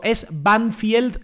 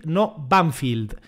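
First: Slow "Banfield" with a "-field" ending said "fyeld"; pronunciation demo. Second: Slow "Banfield" with "-field" said "fild"; pronunciation demo. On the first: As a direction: say "Banfield" slowly, as Spanish "ban-FIELD". ("Banfield" pronunciado despacio con diptongo "fiel") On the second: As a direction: say "Banfield" slowly, English-style as "BAN-fild". ("Banfield" pronunciado despacio como "banfild") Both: Shown as a demonstration. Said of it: "¿Cómo se pronuncia?".

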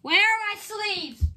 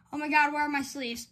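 First: High, drawn-out frantic wail; freaking out. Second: Quick, flustered question. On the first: Card opener hunting for sleeves, frantic wail. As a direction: wail it slowly in a fluster. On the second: Card opener hunting for sleeves, flustered. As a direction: rush it out while freaking out. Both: Real, not acted. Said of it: "I'm freaking out".

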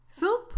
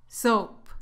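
First: Soup with OO, high and rising; contrasted soup. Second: Soap with OH, falling; contrasted soap. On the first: Teacher testing soup against soap, high rising pronunciation. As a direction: lift Soup up as the first of two contrasted words. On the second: Teacher testing soap against soup, falling pronunciation. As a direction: drop Soap down as the second of two contrasted words. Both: Shown as a demonstration. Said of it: "No confundas estas dos palabras".

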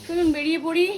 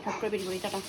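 First: Higher, louder upbeat call; cheery call out. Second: Softer, dropped-down afterthought; tossed off under the breath; soft quick aside. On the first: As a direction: sing it out like a send-off. Cheerful sign-off before leaving. (উঁচু, জোরালো খুশির ডাক) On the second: Quick repeat of sign-off. (নিচু গলায় তাড়াতাড়ি বলা) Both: Real, not acted.

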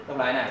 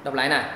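No difference in how they are said.

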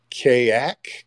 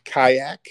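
First: "Kayak" with first syllable like "kay", rising as a question; name said KAY-ack. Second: "Kayak" with first syllable like "sky", rising as a question; name said KY-ack. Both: Real, not acted. Trying a caller's name two ways.

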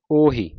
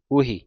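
First: ਉਹੀ with an opening "o"; correct open-o reading. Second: ਉਹੀ with an opening "u"; wrong u-vowel reading. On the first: Teacher showing the right reading, ਉਹੀ as "o-hee". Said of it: "ਊੜੇ ਦਾ ਮੂੰਹ ਖੁੱਲ੍ਹਾ". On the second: Teacher quoting the congregation's slip, ਉਹੀ as "u-hee". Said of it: "ਊੜੇ ਨੂੰ ਔਂਕੜ ਲਾ ਕੇ". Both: Shown as a demonstration.

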